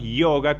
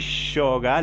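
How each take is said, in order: First: The word begins with an 'ee' sound. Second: The word begins with a 'sh' sound. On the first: "yoga con i" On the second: "la S de Shiva"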